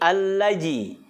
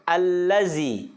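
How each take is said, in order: First: The middle consonant is a j sound. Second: The middle consonant is a buzzing z sound. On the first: "Apalagi allaji" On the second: "bukan allazi"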